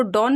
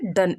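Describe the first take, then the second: First: डॉन with an open "aw" vowel, the misreading of done; teacher shows the mistake, saying डॉन; wrong pronunciation. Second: डन with a short "uh" vowel, like "done"; correct pronunciation. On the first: Teacher to students, warning against a common misreading. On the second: Teacher to students, giving the right reading of done. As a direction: say डन with a clipped short vowel, not डॉन. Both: Shown as a demonstration. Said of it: "इसको डॉन नहीं पढ़ेंगे".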